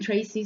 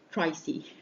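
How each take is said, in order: First: The first vowel is a standard 'ay' sound. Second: The first vowel is shifted toward 'eye'.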